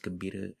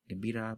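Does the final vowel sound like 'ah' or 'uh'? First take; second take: uh; ah. First: The final vowel is reduced to 'uh'. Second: The final vowel is a full 'ah' sound.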